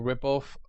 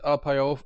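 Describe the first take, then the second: First: The name is said as one word. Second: The name is said as separate parts. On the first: "or ripoff" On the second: "you can pronounce it rpiof"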